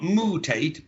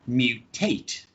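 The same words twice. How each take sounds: First: There is no y sound after the m. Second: A y sound comes right after the m. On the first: The speaker calls it wrong. "So it's not mutate" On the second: The speaker calls it right. "we have to add an intrusion sound, which is y"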